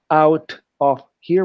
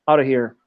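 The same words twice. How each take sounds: First: Each word said fully and apart, "out of here"; slow, careful "out of here" with every word whole; separated words. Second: "out of here" run together as "outta here"; blended words. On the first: Teacher shows students what not to say, unblended "out of here". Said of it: "we don't say". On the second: Teacher shows students the natural cluster, blended "outta here". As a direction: blend "out of here" into one quick natural chunk. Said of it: "we say". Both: Shown as a demonstration.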